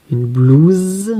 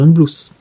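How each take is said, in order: First: Blouse stretched, with a long buzzing final z. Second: Blouse ending in a hissed sss. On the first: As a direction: hold the zzz at the end of blouse. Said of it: "je veux faire Z". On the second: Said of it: "si je mets deux S". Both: Shown as a demonstration.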